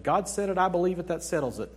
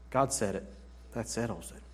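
First: Quick, breezy bumper-sticker recital; rattled-off catchphrase, faster than usual; glib slogan. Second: Said in the usual way. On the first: Retold or imitated. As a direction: toss it off like a slogan everyone knows. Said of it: "There's the bumper sticker that said".

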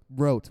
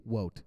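First: Said in the usual way. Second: "wote" with a W sound and no R; mispronounced wrote. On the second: Real, not acted. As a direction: say "wote", the R turned into W.

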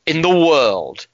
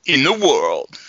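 First: Slow, drawn-out TV presenter's sign-off; Jeremy Clarkson. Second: Slow, drawn-out presenter impression; pause, then drop away on the last word; Jeremy Clarkson. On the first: Acted. Host closing his cricket intro, slow presenter impression. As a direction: stretch it out with a weighty falling finish. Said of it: "channel my inner Jeremy Clarkson". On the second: Co-host trying to do it better, slow presenter impression. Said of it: "can you do better?".

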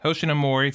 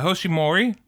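First: "Hoshinamori" with "na" in the middle; corrected name. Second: "Hoshimori" with the middle "na" dropped; mispronounced name. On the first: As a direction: say "Hoshinamori" in full, ho-shi-na-mo-ri. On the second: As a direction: say "Hoshimori" short, skipping the "na". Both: Real, not acted.

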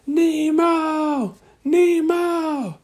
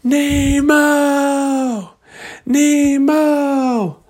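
First: Very high drawn-out call, held back in volume; long high call, not at full volume. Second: Very high, drawn-out calling yell. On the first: Searchers still hunting Nemo, high restrained long call. Calling again for lost Nemo. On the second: Searchers calling for lost Nemo, long high yell. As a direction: holler the name out long and high. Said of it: "they just started yelling". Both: Acted.

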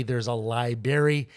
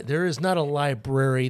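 First: Library said as laibary, dropping the middle r; library with the r swallowed; dropped r library. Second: Library said the Michigan way, with the r kept; library with the Michigan sound. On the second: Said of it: "a series of words like library". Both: Shown as a demonstration.

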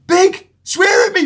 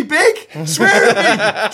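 First: Put-on high, slow excited child; pleading kid voice. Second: Slow, laughing through it; giggling child begging; laughing kid voice. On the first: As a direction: beg like an eager young fan. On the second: Retold or imitated. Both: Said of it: "and they were going".

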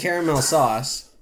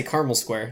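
First: "caramel" said CARE-a-mel; three-syllable caramel. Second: "caramel" said CAR-mul; two-syllable caramel. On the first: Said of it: "I'll say caramel sauce". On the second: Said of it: "I'll say caramel square". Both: Shown as a demonstration.

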